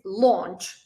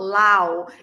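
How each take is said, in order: First: The vowel is a steady aw. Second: The vowel glides like ow. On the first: The speaker calls it right. "something between O and R" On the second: The speaker calls it wrong. "it's not lao"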